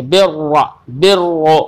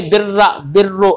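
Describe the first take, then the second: First: बिर्रा and बिर्रु with a heavy, thick doubled रा. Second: बिर्रा and बिर्रु quickly, with a thin, light रा; wrong thin ra. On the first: Teacher to student, showing the thick ra. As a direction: round the रा in बिर्रा thick and full. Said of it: "यानी मोटा पढ़ेंगे". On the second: Teacher to student, showing the wrong thin ra. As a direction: say बिर्रा fast with a fine, thin रा, the mistake. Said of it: "ऐसे नहीं पढ़ेंगे". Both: Shown as a demonstration.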